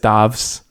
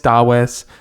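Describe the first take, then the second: First: The name is said the way Scandinavians say it. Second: The name is said the way Spanish speakers say it. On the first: "In Scandinavia, it's Davs" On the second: "in Spain, it's Dawes"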